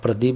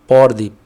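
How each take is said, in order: First: The name is said with standard Hindi pronunciation. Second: The name is said with a Bengali accent. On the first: "अब आप प्रदीप बोलेंगे" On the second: "अगर कोई बंगाली वाला बोलेगा तो"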